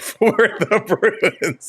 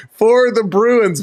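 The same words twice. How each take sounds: First: Slow, trying not to laugh; real laughter breaking into the announcement; failing straight face. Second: Said in the usual way. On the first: Real, not acted. Host starting the Bruins lineup, cracking up. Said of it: "Can't even say it with a straight face". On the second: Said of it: "That was terrible".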